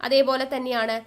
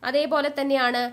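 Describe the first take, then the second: The two takes are said the same way.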